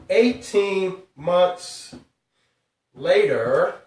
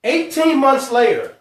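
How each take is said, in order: First: Eighteen months drawn out slowly, pause before later; slow dramatic reveal. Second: Said in the usual way. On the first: Shown as a demonstration. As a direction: stretch eighteen months, hold, then later. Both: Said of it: "here's the part that's really, really crazy".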